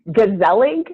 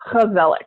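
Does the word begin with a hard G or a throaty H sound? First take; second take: hard G; throaty H. First: It begins with a hard G sound. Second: It begins with a throaty, raspy H sound. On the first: The speaker calls it wrong. "here it looks like it says gezellig" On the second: The speaker calls it right. "it's a H, like an H. You have to cough up a little bit there"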